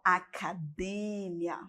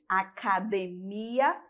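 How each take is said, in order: First: The stress falls where Spanish puts it. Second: The stress falls where Portuguese puts it. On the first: "Em espanhol" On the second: "em português"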